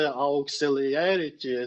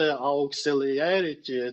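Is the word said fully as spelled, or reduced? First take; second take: full; full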